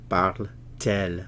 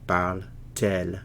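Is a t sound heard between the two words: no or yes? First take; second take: yes; yes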